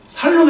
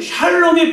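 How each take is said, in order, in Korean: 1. 이 단어는 그냥 s 소리로 시작해요. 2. 이 단어는 sh 소리로 시작해요. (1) "살롬 해도 됩니다" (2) "샬롬이 발음이 어려우면"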